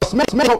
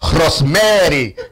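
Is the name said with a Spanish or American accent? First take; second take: American; Spanish. First: It is said with an American accent. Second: It is said with a Spanish accent.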